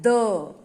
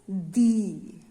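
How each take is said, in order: First: It is said in the before-consonant form. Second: It is said in the before-vowel form. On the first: The next word starts with a consonant sound. "When we talk about consonant sounds, ... we pronounce it as the" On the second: The next word starts with a vowel sound. "when we are using it before the uh, vowel sounds, we pronounce it as the"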